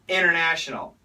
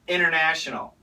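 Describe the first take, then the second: First: The T after the N is dropped. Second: The same.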